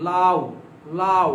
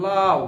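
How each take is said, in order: First: লাউ with a clipped, short উ glide; short semivowel. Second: লাউ drawn out, with a full, long উ; long wrong way. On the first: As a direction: say লাউ and cut the উ short, as a half vowel. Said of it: "এই উটা আমরা ছোট করে দিচ্ছি". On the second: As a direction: stretch the উ in লাউ into a full vowel. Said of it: "এটা বড় করতেছেন আপনি". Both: Shown as a demonstration.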